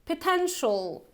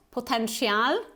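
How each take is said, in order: First: Potential ending in a short "shul"; correct pronunciation. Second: Potential with a full "shee-al" ending; wrong pronunciation. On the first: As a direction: say potential as "puh-TEN-shul". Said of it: "it's potential". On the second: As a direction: mispronounce potential as "po-ten-shee-al". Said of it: "So it's not potential". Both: Shown as a demonstration.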